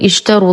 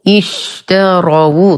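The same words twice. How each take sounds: First: The final w has no u vowel. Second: The final w carries an u vowel. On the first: The speaker calls it wrong. "لا نقول" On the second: The speaker calls it right. "الواو مضمومة"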